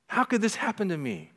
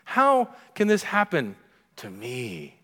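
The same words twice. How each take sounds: First: Higher self-pitying question; mock whine. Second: Mock whine. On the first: Preacher voicing listener's self-pity, lightly whined. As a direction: ask it with wounded disbelief. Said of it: "What are you saying that to?". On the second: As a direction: moan it like nothing bad should touch you. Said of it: "something in all of us".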